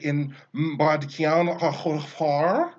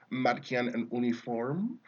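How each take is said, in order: First: It is said as an exaggerated, choking German parody. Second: It is said in a plain German approximation.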